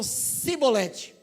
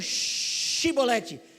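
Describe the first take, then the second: First: The word begins with an 's' sound. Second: The word begins with an 'sh' sound. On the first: The speaker is from Ephraim and cannot say it properly. The speaker calls it wrong. "eles falavam Sibolete" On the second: This is the password that is said properly. The speaker calls it right. "Eles não falavam Shibolete"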